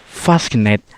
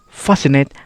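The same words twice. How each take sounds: First: The c is said as a k. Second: The c is silent. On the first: The speaker calls it wrong. "people also think C can be read as letter K" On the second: The speaker calls it right. "the C becomes silent"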